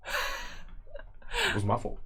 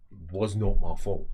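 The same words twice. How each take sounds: First: Very slow whisper, to himself; slow whispered denial. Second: Slow, louder, NOT stressed; emphatic denial. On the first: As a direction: breathe it out slowly, stunned. Berthold muttering to himself. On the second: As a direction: lean hard on not. Berthold insisting. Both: Acted.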